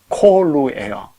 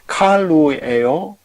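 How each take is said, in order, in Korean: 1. 첫 모음은 둥근 'o' 소리입니다. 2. 첫 모음은 열린 'a' 소리입니다. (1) "이게 이제 부활형이니까 콜루다 이거죠" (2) "이게 왜 칼루가 아니고 콜루죠?"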